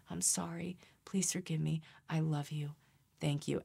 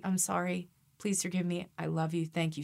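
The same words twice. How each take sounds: First: Softer mantra, each line set apart; meditative mantra. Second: Said in the usual way. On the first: Shown as a demonstration. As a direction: repeat it quietly like a meditation. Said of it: "Say it as a mantra". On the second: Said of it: "you could say".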